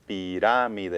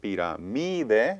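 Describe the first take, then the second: First: The stress is on the second syllable. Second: The stress is on the third syllable. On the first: The speaker calls it right. "but I said pirámide" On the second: The speaker calls it wrong. "it should be stressed based on the rule on the mi"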